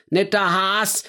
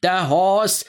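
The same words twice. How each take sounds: First: „Haas" meaning the rabbit, open bright a; rabbit Has. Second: „Haas" as the family name, drawn long with a dark vowel; surname Haas. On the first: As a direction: say „Haas" as the Franconian word for rabbit. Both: Acted. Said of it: "japste er".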